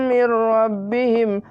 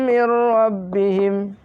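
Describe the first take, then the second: No difference in how they are said.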